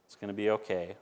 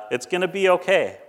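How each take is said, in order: First: Softer and lower, settling; a quiet promise, eased down; soft reassurance. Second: Louder, lifted, firm; a hopeful promise, pushed out; emphatic reassurance. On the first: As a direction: let it fall gently to comfort. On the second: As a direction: say it out boldly to the city. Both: Retold or imitated. Reading garbage man's tweet.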